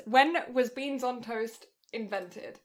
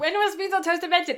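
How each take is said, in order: First: Reading slowly as she types the search; slow typing read. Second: Higher and louder, announcing the question; announcing the search. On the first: While Googling the question, slow typing read. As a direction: sound it out word by word while typing. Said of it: "I'm Googling this". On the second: Reading the Google search to her friend, loud announcement. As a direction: call out the search like a headline. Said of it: "It actually comes up on Google search". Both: Real, not acted.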